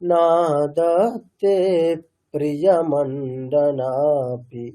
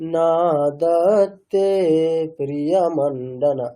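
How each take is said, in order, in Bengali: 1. p-টি দ্বিত্ব হয়, যা আগের সিলেবলটিকে শেষ করে। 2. p-টি একবারই উচ্চারিত হয়, শুধু 'pri'-র আগে। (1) "তাহলে পটাকে রিপিট করতে পারি আমরা" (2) "এরকম বললে একটা ব্যাপার"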